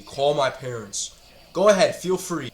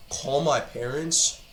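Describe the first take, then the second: First: Slow, falling scoff. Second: Slow, rising disbelief; disbelieving. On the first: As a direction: say it flat, dismissing the threat. Repeating the threat, scoffing. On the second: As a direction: repeat it as if you can't believe it. Repeating the threat in disbelief. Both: Real, not acted.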